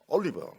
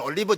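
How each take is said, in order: First: It is said with an English-like pronunciation. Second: It is said with a plain Korean pronunciation. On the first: The speaker sounds sophisticated. The speaker calls it right. "우리는 올리브" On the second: The speaker sounds unsophisticated. The speaker calls it wrong. "이렇게 촌스럽게 하면 안 됩니다"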